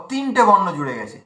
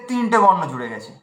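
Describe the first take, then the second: No difference in how they are said.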